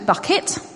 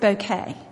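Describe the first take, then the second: First: The name sounds like the word bucket. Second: The name sounds like the word bouquet. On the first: This is the plain, real form of the name. "Her name is actually Bucket" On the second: This is a pretentious form used to seem posh. "she pronounces it Bouquet"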